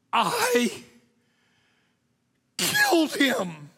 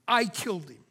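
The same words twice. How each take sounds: First: High, loud, slow confession; anguished cry. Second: Said in the usual way. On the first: Acted. Preacher confessing dramatically.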